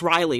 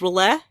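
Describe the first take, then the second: First: The name sounds just like 'Riley'. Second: The name does not sound like 'Riley'. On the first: The speaker calls it wrong. "I've always pronounced it as Riley, which I is not right at all" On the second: The speaker calls it right. "I heard somebody pronounce it as R'lyeh, and the way it's spelled, that makes the most sense"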